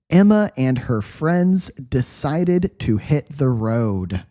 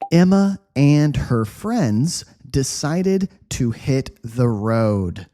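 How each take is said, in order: First: The sentence is read at medium speed. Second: The sentence is read slowly and easily. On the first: "One more time, medium speed" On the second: "Nice, slow, easy read"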